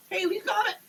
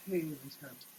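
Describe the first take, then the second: First: Triumphant cry. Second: Muted echo. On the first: Preacher cries out in triumph. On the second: Preacher repeats his cry, muted. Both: Acted.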